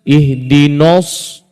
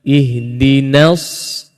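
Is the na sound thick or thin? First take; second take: thick; thin. First: The na sound is thick like the s. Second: The na sound is thin before a thick s. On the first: The speaker calls it wrong. "ramai di kalangan kita baca silap" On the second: The speaker calls it right. "Na bari atas nipis masuk ke dalam sad tebal"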